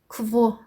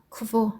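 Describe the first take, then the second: The two takes are said the same way.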